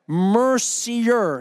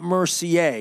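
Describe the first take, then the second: First: The name is said with English sounds. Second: The name is said with French sounds. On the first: The speaker calls it right. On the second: The speaker calls it wrong.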